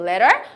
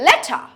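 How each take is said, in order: First: American accent, with the middle T as soft D. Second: British accent, with a sharp T and no R. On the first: "আমেরিকানসরা will say" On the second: "ব্রিটিশরা will say"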